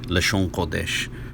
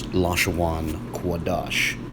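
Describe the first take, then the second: First: The phrase is said as 'Lashon Kodesh'. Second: The phrase is said as 'Lashawan Kodash'. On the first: This is the standard Hebrew pronunciation. "In a standard understanding of Hebrew, it's typically vocalized" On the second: This is the pronunciation used by a particular group. "One West Israelites pronounce this phrase"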